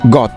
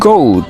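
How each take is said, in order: First: The vowel is a short o sound. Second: The vowel is a long oh sound. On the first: The speaker calls it wrong. "নট গট" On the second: The speaker calls it right. "তোমাদের বলতে হবে গোট"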